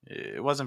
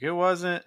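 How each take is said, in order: First: The second phrase drops lower in pitch. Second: The second phrase goes back up in pitch. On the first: The speaker calls it right. "now I went down instead of going back up" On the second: The speaker calls it wrong. "you went back to where you were before"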